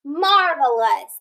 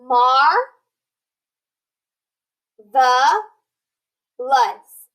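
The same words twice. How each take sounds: First: "Marvelous" slow with a light schwa; careful whole word; slow blended read. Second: "mar", "the", "lus" said apart with pauses; syllable by syllable. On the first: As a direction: blend the parts slowly. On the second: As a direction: sound out each chunk slowly. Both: Shown as a demonstration. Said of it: "That E had that schwa sound".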